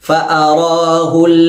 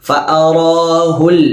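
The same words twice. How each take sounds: No difference in how they are said.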